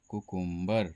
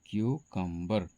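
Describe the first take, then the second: First: The word begins with a plain 'koo' sound. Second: The word begins with a 'kyoo' sound. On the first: The speaker calls it wrong. "इसको लोग कह देते हैं" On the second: The speaker calls it right. "इसका सही उच्चारण"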